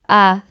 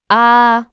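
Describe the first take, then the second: First: The vowel is short and quick. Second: The vowel is long and stretched. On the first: "the alif stretches the a sound" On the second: "to a"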